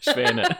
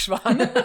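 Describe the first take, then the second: First: The vowel sounds like 'eh'. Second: The vowel sounds like 'ah'. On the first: The speaker calls it right. "Schwäne, ja" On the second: The speaker calls it wrong. "nicht Schwane"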